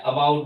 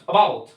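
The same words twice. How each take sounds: First: About in an Indian accent, first a audible; Indian-English about, lower, opening on a clear "a". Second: About with the first a almost vanishing; louder about, landing quickly on "bout"; very quick schwa. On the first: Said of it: "Indian accent में आ का sound थोड़ा सुनाई देता है". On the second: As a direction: say about with a tiny schwa at the start. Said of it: "आ को इतना जल्दी बोलेंगे". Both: Shown as a demonstration.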